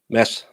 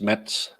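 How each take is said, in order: First: The name is said without a D sound. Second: The name is said with a D-like sound. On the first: The speaker calls it right. "the D is silent" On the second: The speaker calls it wrong. "you all want to pronounce the D"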